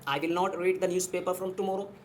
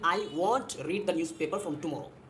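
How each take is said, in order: First: 'Will not' is said as two full words. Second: 'Will not' is squeezed into one short word. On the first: "I विल नॉट" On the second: "विल नॉट को हम combine कर देंगे, short में बोलेंगे"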